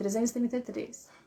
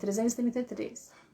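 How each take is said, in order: First: The sounds are mumbled and poorly articulated. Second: The same.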